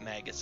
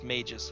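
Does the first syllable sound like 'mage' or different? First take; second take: different; like mage. First: The first syllable does not sound like 'mage'. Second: The first syllable sounds like 'mage'. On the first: This is the common pronunciation. The speaker calls it wrong. "A lot of people pronounce it magus" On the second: This is the proper pronunciation. The speaker calls it right. "It's actually supposed to be pronounced magus, which is why mage is short for it"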